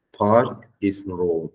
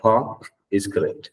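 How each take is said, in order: First: Park said slowly with a rolled R; wrong park, slow. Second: Park said ahk-style, no R; correct park. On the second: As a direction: model park, no R. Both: Shown as a demonstration.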